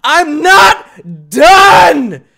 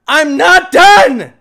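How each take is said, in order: First: Much higher, loud and very slow; slow drawn-out shout. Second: Higher and loud, quicker; shout. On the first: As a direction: stretch out the yell. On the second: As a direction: yell it again more clipped. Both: Real, not acted. Repeated shout.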